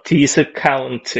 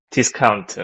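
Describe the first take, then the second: First: "discount" slowly, in five syllables, di-seu-ka-un-teu; Korean syllable pronunciation. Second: "discount" run together quicker, Korean-style; connected Korean pronunciation. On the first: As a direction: draw out "discount" Korean-style, one beat per syllable. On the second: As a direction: say "discount" as one joined-up Korean loanword. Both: Shown as a demonstration. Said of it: "letters and one each syllable".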